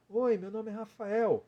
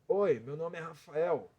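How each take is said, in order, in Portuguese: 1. A voz é aguda, colocada na cabeça. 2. A voz é rouca e empurrada da garganta. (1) "É uma voz aguda" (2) "Eu vou tirar agora da garganta"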